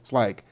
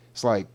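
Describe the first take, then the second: No difference in how they are said.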